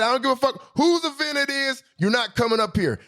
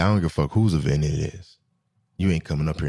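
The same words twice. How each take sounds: First: High, squeaky mock of the guard's refusal. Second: Low, blunt imitation of the old security guard; gruff old guard. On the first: Retelling the guard's refusal to the audience, high mocking squeak. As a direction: squeak it out, making fun of him. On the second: Old guard blocking him from the section, low and blunt. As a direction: growl him off like a tired old bouncer.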